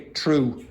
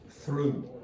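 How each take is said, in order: First: The word begins with a hard t sound. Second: The word begins with a soft th sound.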